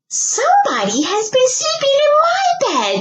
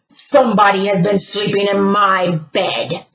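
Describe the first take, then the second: First: It is said in a shrill little voice. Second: It is said in a big booming voice.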